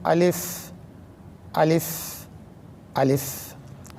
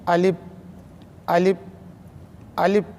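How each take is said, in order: First: Upper teeth touch the lower lip; lips stay apart. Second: Both lips close together while making the sound. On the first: The speaker calls it right. "दोनों होंठों को ना मिलाए और इस तरह पढ़े" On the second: The speaker calls it wrong. "दोनों होंठों को मिलाकर पढ़ता है तो आवाज़ इस तरह से आएगी"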